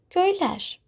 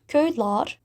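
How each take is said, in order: First: Köyler ending in a front "-lær"; correct vowel harmony. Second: Köyler said with a back "-lar" ending; köyler with "ah" in the last syllable; mismatched suffix vowel. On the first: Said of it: "we say köyler". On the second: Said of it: "Instead of köyler". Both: Shown as a demonstration.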